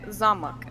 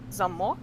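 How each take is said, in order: First: Zamak with the first syllable stressed. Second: Zamok with the last syllable stressed; stress on second syllable. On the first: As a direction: hit the ZA in zamak, last syllable reduced. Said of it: "the stress is on the first syllable". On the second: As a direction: hit the MOK in zamok, first syllable light. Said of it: "Just the stress is on one". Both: Shown as a demonstration.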